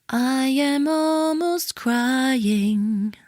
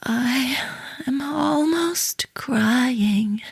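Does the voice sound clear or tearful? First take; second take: clear; tearful. First: The voice is clear and steady, without emotion. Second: The voice and breath are shaky and tearful. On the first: The feeling does not come across as real. The speaker calls it wrong. "That's not very convincing" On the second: The speaker really seems close to tears. The speaker calls it right. "my breath is different, my voice is different"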